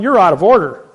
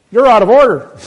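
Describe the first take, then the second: First: Loud, sharp objection in court; retold shout. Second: Higher, louder, booming rebuke from the bench; the judge slams back, louder and higher; judge's retold shout. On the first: The speaker shouting at the judge in court, loud objection. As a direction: shout the judge down mid-trial. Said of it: "I'm going". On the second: The judge shouting the speaker down, loud, high rebuke. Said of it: "the judge perks up and says".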